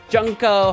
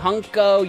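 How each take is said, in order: First: The name starts with a J sound. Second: The name starts with an H sound. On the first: "In English, Junko" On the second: "in some languages the J makes an H sound"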